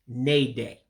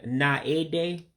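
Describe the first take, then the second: First: The vowel after the n is dropped entirely. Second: The vowel after the n is pronounced separately. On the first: The speaker calls it right. "all you're saying is nay day, because you're eliminating that A" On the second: The speaker calls it wrong. "Instead of saying"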